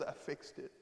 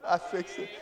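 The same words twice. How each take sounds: First: Softly spoken, much quieter; hushed. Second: Said in the usual way. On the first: Retold or imitated. Jesus tenderly telling Adam, hushed and soft. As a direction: say I fixed it barely above a breath.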